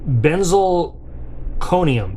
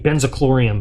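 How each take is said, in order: First: The word ends with a 'conium' sound. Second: The word ends with a 'chlorium' sound. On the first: The speaker calls it right. "What are they? Benzalconium" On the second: The speaker calls it wrong. "I always mispronounce this. I always say benzochlorium, but that's not it"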